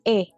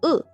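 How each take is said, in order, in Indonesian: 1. Vokal itu bunyi eh terbuka yang jelas. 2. Vokal itu bunyi uh netral. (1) "Kalau meja kan E" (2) "seperti pengucapan huruf E dalam kata kera, cepat, elang, peka"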